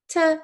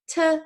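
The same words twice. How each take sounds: First: The word is cut to a weak, short sound. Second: The word is cut to a weak, short sound.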